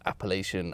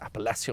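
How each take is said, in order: First: It is said with an English pronunciation. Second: It is said with a French pronunciation.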